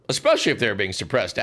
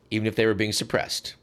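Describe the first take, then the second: First: "Especially" punched up and faster; "Especially" hit as a correction; stress on especially. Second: Said in the usual way. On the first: Shown as a demonstration. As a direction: lean hard on "Especially".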